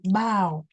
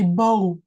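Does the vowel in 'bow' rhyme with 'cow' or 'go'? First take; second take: cow; go. First: The vowel rhymes with cow. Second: The vowel rhymes with go. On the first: It means bending forward in greeting. The speaker calls it right. "We say bow. Okay. So ow" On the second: It means the weapon or a tie. The speaker calls it wrong. "it becomes the, the the weapon, yeah, the bow and arrow"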